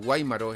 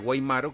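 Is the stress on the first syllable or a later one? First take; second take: first; later. First: The stress is on the first syllable. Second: The stress is on a later syllable. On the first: It means ammunition. "pero Guaymaro es municiones" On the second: It is a surname. "que es un apellido"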